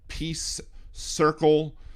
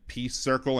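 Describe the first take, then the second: First: The two words are clearly separated. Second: The two words run together into one. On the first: The speaker calls it right. "phonetically like separating the two and saying" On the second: The speaker calls it wrong. "sounded like pea circle"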